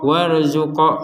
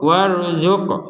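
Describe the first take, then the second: First: The final q is followed by an added vowel. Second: The final q ends with only a short bounce. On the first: The speaker calls it wrong. "kita memberi harokat baru sehingga menjadi warzuqo" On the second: The speaker calls it right. "hanya dipantul dipantulkan. Warzuq warzuq seperti itu"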